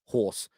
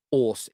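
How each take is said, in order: First: Said in the usual way. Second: "horse" with the H left off, 'orse; dropped H. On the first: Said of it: "instead of horse". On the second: Shown as a demonstration. Cockney host shows his accent, "horse" without its H. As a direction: say "horse" Cockney-style, starting on the vowel. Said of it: "Don't pronounce my H's".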